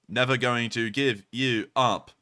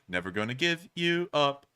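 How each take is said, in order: First: It is said in a robotic machine voice. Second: It is said in his natural voice.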